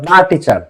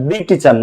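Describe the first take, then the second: First: 'The' is said with a short 'uh' vowel. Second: 'The' is said with a long 'ee' vowel. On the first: The speaker calls it right. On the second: The speaker calls it wrong. "দি teacher না"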